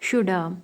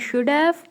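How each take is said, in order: First: The words blend together with 'have' reduced. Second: Both words are said fully and separately.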